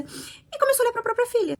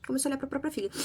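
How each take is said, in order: First: High, shocked outcry on começou; shocked emphasis. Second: Said in the usual way. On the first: Real, not acted. Telling her audience of the father's turn to the daughter, shocked and high. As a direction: reviewer voicing her disbelief at the twist, high and stunned. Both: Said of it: "É isso, gente".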